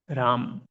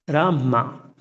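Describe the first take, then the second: First: It ends on the consonant, one syllable. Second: It ends with an added vowel, two syllables. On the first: "it's not thirty-two syllable. It is Ram" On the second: "Then two syllables come"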